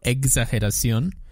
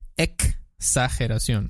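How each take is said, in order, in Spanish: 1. La x empieza con un sonido suave, como de huevo. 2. La x es una k cortante más s. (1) "Exageración está mal" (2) "Es exa"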